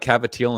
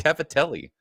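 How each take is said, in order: First: It is said with a New York Italian accent. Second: It is said with a plain, standard pronunciation. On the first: The speaker calls it wrong. "They say" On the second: The speaker calls it right. "just say"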